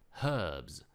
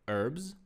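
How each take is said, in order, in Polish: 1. Wymawiane jest z brytyjską wymową. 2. Wymawiane jest z amerykańską wymową. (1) "wersja brytyjska" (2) "wersja amerykańska"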